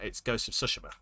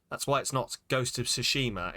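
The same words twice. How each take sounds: First: Tsushima with every syllable even and unstressed; Tsushima said level, the Japanese way. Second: Tsushima with a hard stress on its middle syllable; Tsushima pushed on one syllable the English way; wrong stressed way. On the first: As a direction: say Tsushima flat, no syllable leaned on. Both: Shown as a demonstration. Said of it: "'Cause there's no emphasis in Japanese".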